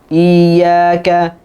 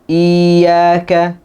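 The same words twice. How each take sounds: The two takes are said the same way.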